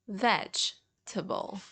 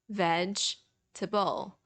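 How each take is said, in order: No difference in how they are said.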